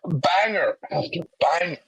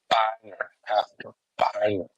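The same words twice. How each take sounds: First: It is said in a put-on accent. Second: It is said in the speaker's usual accent.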